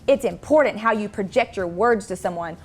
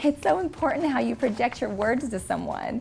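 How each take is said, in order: First: It is said in a firm, serious voice. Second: It is said in a giggly, unserious voice.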